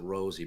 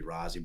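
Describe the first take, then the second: First: The name is said like 'Rosie'. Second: The name is said like 'Rozzy'. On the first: This is how the person himself says his name. The speaker calls it wrong. "he pronounces it Rosie" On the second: This is how the name should be said. The speaker calls it right. "but it should be Rozzy"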